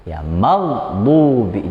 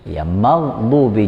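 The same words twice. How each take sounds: First: Slow "maghdubi" held, b not bounced; unbounced maghdubi again. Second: Slow "maghdubi" with no bounce on the b; unbounced maghdubi. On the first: Teacher repeats the unbounced b for the students. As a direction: say "maghdubi" slowly, b kept flat. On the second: Teacher models the b without bounce, slowly. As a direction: draw out "maghdubi", stopping the b dead. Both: Shown as a demonstration. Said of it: "jangan dipantul".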